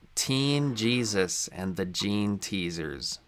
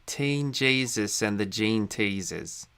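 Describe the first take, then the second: First: It is said in the speaker's ordinary accent. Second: It is said in an imitated Australian accent.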